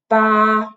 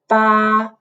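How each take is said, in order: First: The pitch stays level and flat throughout. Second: The same.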